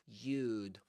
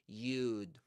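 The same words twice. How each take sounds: First: The two words are contracted into one syllable. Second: The same.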